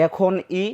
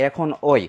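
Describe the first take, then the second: First: "এখন ই" ending in a pure i sound; ekhon-i pronunciation. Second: "এখন ওই" ending in an oi glide; ekhon-oi pronunciation. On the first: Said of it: "যেমন বলা হয়". ("এখন ই"-র শেষে স্পষ্ট ই উচ্চারণ) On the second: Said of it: "আবার কেউ কেউ বলে". ("এখন ওই"-এর শেষে ওই উচ্চারণ) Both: Shown as a demonstration.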